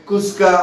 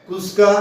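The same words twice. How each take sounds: No difference in how they are said.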